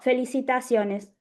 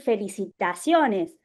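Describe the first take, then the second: First: It is said flatly, without feeling. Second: It is said with lively, enthusiastic intonation.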